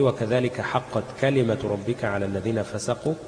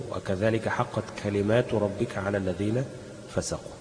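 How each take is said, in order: First: Slow recitation, كلمة with a short a, kalimatu; singular reading. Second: Slow recitation, long aa in كلمات; plural reading. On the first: Teacher quotes Surat Yunus as Hafs reads it, كلمة singular. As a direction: keep the last a of كلمة short. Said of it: "بالإفراد". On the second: Teacher demonstrates some readers' plural version, reciting كلمات with long aa. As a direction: stretch كلمات as kalimaatu. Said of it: "بالجمع". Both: Shown as a demonstration.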